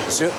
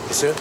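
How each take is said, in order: Both takes have the same delivery.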